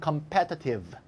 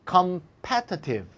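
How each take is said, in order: First: The word is said quickly and reduced. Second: The word is said slowly and carefully.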